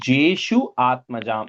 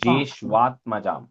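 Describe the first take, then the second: First: The two words are said separately, vowels kept apart. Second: The words merge, with u and a becoming wa. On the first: The speaker calls it wrong. "like you said, those are the two words" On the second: The speaker calls it right. "the Shu and A becomes Shwa"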